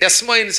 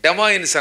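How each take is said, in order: First: An s sound follows the first syllable. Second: No s sound follows the first syllable. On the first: The speaker calls it wrong. "తెలియక డెస్మాయిన్స్ అనేవాళ్ళం" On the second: The speaker calls it right. "డెమాయిన్స్ అనాలటది"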